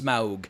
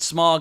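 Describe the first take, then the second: First: The name does not sound like 'smog'. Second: The name sounds exactly like the word 'smog'. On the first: "I know it's Smaug" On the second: "I pronounce it Smog, like smog in the air"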